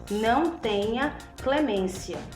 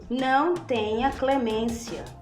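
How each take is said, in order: The two takes are said the same way.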